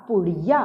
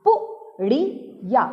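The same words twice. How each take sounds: First: Said in the usual way. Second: पुड़िया split slowly into पु, ड़ी, या; syllable by syllable. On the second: Shown as a demonstration. Teacher showing children how to read पुड़िया, syllable by syllable. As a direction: sound out पुड़िया in three separate syllables. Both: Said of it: "हम इसे पु ही बोलेंगे".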